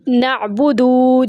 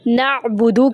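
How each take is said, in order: First: The final vowel is drawn out long. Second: The final vowel is short. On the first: The speaker calls it wrong. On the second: The speaker calls it right.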